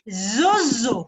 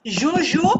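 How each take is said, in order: First: The name uses buzzing z sounds. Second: The name uses soft zh sounds. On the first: The speaker calls it wrong. "il dit zozo" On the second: The speaker calls it right. "Au lieu de dire Jojo"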